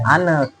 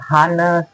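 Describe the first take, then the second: First: The word starts with no h sound. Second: The word starts with an audible h sound. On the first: The speaker calls it right. "itu silent H" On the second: The speaker calls it wrong. "mereka ucap seperti"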